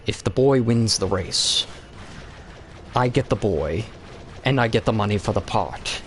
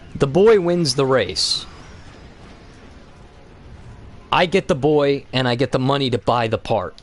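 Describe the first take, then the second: First: It is said in an imitated Qui-Gon voice. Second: It is said in his normal voice.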